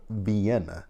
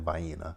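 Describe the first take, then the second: First: Vienna is said the way it is spelled. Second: Vienna is said in a Southern regional way. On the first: "It looks like it says it, it's spelled Vienna" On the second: "my family and I for years we've always said Vienna"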